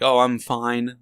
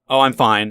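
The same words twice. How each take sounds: First: It sounds unsure and inadequate. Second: It sounds confident and reassured. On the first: The speaker is not up to the task. "that's not good enough. That's not competent enough" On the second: The speaker is doing well. "And it's like, okay, good"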